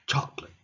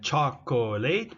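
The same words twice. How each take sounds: First: The middle syllable is dropped. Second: All three syllables are pronounced.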